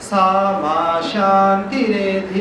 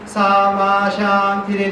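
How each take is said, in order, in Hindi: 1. अक्षर ma अनुदात्त स्वर में है। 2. अक्षर ma उदात्त स्वर में है। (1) "वो है अनुदात। ... ऐसा बोलना चाहिए" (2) "माँ को उदात्त कर देते"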